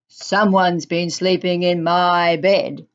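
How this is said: The voice is loud and gruff. A big father bear is speaking. "in a loud, gruff voice"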